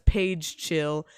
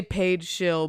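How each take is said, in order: First: "Paige Chill" said slowly with a hard ch; literal typo reading. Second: Said in the usual way. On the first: Shown as a demonstration. Streamer reading a typo aloud, slow, hard-ch "Paige Chill". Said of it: "but it says Paige Chill". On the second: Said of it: "it's supposed to say".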